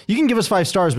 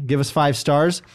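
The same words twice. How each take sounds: First: Can lifted high and leaned on; stress on can. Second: Said in the usual way. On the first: Shown as a demonstration. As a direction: push up on the word can. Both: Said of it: "but you don't have to".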